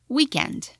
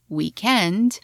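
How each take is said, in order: First: The stress is on the first syllable. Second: The stress is on the last syllable. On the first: "while in American it's" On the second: "in British English is"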